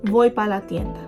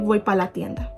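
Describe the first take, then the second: First: The word para is shortened to pa. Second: The same.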